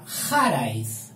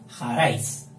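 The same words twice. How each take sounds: First: The stress falls on the first syllable. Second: The stress falls on the last syllable. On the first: The speaker calls it wrong. "Si fuera llana sería jaraiz" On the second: The speaker calls it right. "Y la fuerte sería raiz. ... ha de ser jaraiz"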